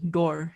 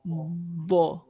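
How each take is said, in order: First: The consonant sounds like a plain d. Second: The consonant is a heavy, emphatic sound. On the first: The speaker calls it wrong. "should not be pronounced is door" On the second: The speaker calls it right. "using the side of your tongue in between your teeth"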